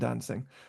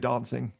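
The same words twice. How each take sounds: First: It is said in a non-southern English accent. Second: It is said in a southern English accent. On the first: The speaker calls it wrong. "rather than dancing" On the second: The speaker calls it right. "I'm from the southern part of England, and we say dancing"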